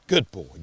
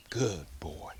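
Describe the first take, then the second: First: Said in the usual way. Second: Hushed whisper to the dog; whispered praise. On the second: Real, not acted. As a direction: breathe the praise, no voice. Praising dog after drop.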